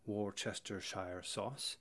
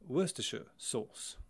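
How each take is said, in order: First: Worcestershire is said with all four syllables. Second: Worcestershire is shortened to three syllables. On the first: The speaker calls it wrong. "that wasn't the correct way to pronounce it" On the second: The speaker calls it right. "in England, all over England, that would be called"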